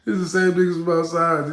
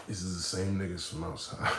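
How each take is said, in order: First: Loud incredulous exclamation; loud exclaimed repeat. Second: Hushed dawning realization; quiet realization. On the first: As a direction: shout it out as the shock hits. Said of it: "repeated loud". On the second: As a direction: murmur it as the penny drops. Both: Shown as a demonstration.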